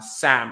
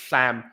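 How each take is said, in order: First: The first sound is a clear, normal S. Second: The first sound lets air out at the sides. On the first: "if they try to say uh, Sam" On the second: "lateralized, meaning uh, the air isn't coming from the middle, it's coming from the sides"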